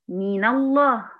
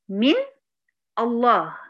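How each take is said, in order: First: The n takes a vowel linking into the next word. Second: The n has no vowel before the next word. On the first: "أنا لما جيت أنطقها قلت إيه؟" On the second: "الأصل فيها كان إيه؟ ... ونون ساكنة"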